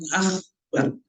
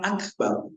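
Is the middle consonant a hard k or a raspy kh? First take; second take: raspy kh; hard k. First: The middle consonant is a raspy kh sound. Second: The middle consonant is a hard k sound. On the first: The speaker calls it wrong. "maka tidak sah kalau dia mengatakan akbar" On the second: The speaker calls it right. "Kalau memang dia bisa mengucapkan akbar"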